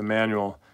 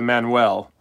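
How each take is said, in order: First: It is said with a plain English pronunciation. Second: It is said like the Spanish name Manuel.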